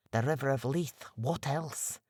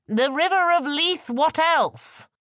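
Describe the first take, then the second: First: Said in the usual way. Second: High, loud call across the water; hailing shout. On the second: Acted. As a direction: bellow it to the other ship as a proud Scot. Shouting to convince the ship.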